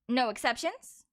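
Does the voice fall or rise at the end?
rise. The voice rises at the end. It asks whether any exceptions exist. "I asked"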